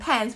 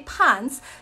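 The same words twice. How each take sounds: First: Pants is said with its usual vowel. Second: Pants is said with a vowel changed to rhyme. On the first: "instead of saying pants" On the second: "we say pants to make it rhyme"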